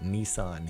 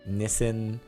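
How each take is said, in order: First: Nissan is said the American way. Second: Nissan is said the British way. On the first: "we pronounce it Nissan here in the United States" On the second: "you say Nissan over in the U K"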